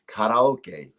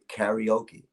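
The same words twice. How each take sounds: First: It is pronounced the original Japanese way. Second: It is pronounced the American English way. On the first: This is the original form of the word. The speaker calls it right. "it's karaoke" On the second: This is how Americans say it. The speaker calls it wrong. "in America they say karaoke. That's the incorrect pronunciation"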